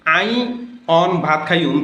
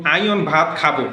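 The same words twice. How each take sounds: First: "আই অন ভাত খাইয়ুম" in Noakhali dialect, অন for এখন; proper Noakhali: আই অন ভাত খাইয়ুম. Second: "আই অন ভাত খাবো", Noakhali আই অন with standard খাবো; half-dialect wrong form; wrong mixed dialect. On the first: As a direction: Noakhali Bengali, understated. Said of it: "এটিকে যদি". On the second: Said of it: "বরং এটি হবে অশুদ্ধ". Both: Shown as a demonstration.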